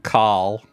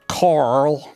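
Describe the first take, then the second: First: The R sound is dropped. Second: The R sound is clearly pronounced.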